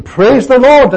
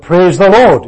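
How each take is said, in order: First: High, loud shout of praise the Lord; top-of-voice shout. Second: Loud call of praise the Lord; shouted praise. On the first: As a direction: yell it at the top of your voice. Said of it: "as loud as he could shout". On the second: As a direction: call it out in the meeting. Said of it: "he just shouted out". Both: Retold or imitated.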